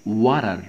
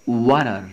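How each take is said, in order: Both takes have the same delivery.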